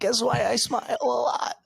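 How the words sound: It is said in a put-on character voice. "I'm going to try to do the voice again"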